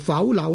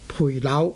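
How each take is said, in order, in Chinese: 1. 第一个音节听起来像'pou'。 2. 第一个音节听起来像'pui'。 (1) "读做腐朽呢然后至正确" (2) "一般人呢是惯于使用培养的培字，所以呢大家呢可能呢会读做呢培朽"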